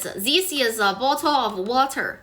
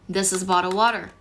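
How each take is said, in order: First: The sentence sounds accented, with altered sounds. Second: The sentence sounds natural, with standard sounds. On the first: The speaker calls it wrong. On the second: The speaker calls it right.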